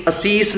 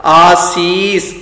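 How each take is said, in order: First: ਅਸੀਸ with quick a, a-sees; short first vowel. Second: ਆਸੀਸ very slow, aa-sees; long first vowel. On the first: Teacher warns against this reading, ਅਸੀਸ begun short. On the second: Teacher models the right reading, ਆਸੀਸ with long aa. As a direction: hold the opening aa of ਆਸੀਸ. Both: Shown as a demonstration. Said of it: "ਅਸੀਸ ਨਹੀਂ ਬੋਲਣਾ".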